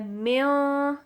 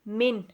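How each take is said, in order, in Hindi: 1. “n” की आवाज़ नाक में छुपी हुई है। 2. “n” की आवाज़ साफ़ और स्पष्ट है। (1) "म्यों होता है नाक में छुपाना" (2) "हम इसको क्लियरली पढ़ेंगे"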